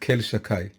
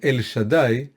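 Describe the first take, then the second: First: The name starts with 'kel' and has 'shakai'. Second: The name starts with 'el' and has 'shaddai'. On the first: This form avoids saying the name itself. "but we pronounce it Kel Shakai" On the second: This is the name's actual form. "I'll say it once"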